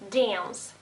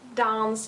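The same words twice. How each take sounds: First: It is said with an American accent. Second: It is said with a British accent.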